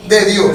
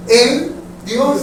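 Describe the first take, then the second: First: De hit louder with a falling tune before Dios; teacher contrasting de with en; stress on de. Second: En stressed with a rising tune before Dios; teacher pointing out the word En. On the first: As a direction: punch the word de. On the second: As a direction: lean on the little word En. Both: Shown as a demonstration. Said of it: "cambió una sola palabra".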